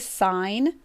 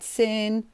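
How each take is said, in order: First: It has a long vowel, sounding like 'sign'. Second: It has a short vowel, sounding like 'sin'. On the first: The speaker calls it right. "I traditionally will pronounce it correctly" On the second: The speaker calls it wrong. "A lot of people like to call that sin"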